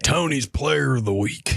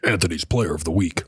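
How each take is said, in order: First: It is said in a Southern American accent. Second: It is said in a plain, neutral accent.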